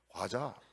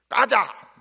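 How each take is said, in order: First: It has a plain first consonant, standard style. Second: It has a tense first consonant, Busan style. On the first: The speaker calls it right. "이렇게 해야죠" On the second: The speaker calls it wrong. "이거는 이거 부산 쪽이라"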